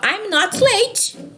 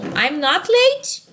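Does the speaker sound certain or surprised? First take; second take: certain; surprised. First: It is said as a calm, certain statement. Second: It is said with a surprised, questioning tone. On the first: The speaker is sure she is not late. "eu tenho certeza que eu não estou atrasada" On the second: The speaker is surprised at the idea of being late. "dá uma ideia de surpresa"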